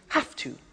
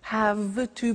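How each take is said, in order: First: Have ends with a voiceless f sound. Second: Have ends with a voiced v sound.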